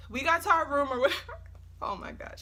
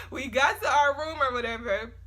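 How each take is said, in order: First: Laughing. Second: Said in the usual way. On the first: Real, not acted. Laughing through storytime.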